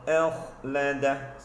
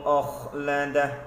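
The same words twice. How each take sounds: First: The first vowel is unrounded, without an 'oh' sound. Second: The first vowel is a rounded 'oh' sound. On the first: The speaker calls it right. "bacaan yang tepat bunyinya begini" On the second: The speaker calls it wrong. "bacaan yang salah, yang kurang tepat begini ... bunyi oh"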